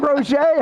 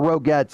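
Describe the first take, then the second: First: The name ends without any t sound. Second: The name ends with a pronounced t sound. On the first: "Is it really Roger?" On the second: "I've been pronouncing it Rogettes my entire life"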